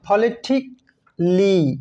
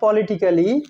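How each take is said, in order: First: The a in the ending is silent. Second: The a in the ending is pronounced. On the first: The speaker calls it right. "Silent থাকে" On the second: The speaker calls it wrong. "Not"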